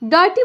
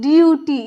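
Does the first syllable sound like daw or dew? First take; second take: daw; dew. First: The first syllable has an open aw vowel. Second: The first syllable has a y glide before oo. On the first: The speaker calls it wrong. "मत पढ़िएगा" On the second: The speaker calls it right. "यू या यो उच्चारण"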